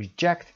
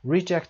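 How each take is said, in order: First: "reject" stressed on JECT; second-syllable stress. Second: "reject" stressed on RE; first-syllable stress. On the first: Teacher giving students the verb, "reject" stressed on JECT. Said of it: "یعنی پس زدن". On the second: Teacher giving students the noun, "reject" stressed on RE. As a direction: noun form, RE-ject. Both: Shown as a demonstration.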